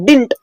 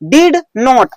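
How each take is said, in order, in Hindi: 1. यह एक जुड़ा हुआ शब्द है। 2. यह दो अलग शब्द हैं।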